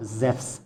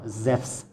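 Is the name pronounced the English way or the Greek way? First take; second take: Greek; Greek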